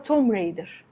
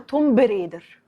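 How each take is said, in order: First: No b sound is pronounced before 'Raider'. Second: A b sound is pronounced before 'Raider'. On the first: The speaker calls it right. "حرف البي اللي في الآخر هو سايلنت" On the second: The speaker calls it wrong. "ناس كتيرة قوي بتقولها توم بريدر"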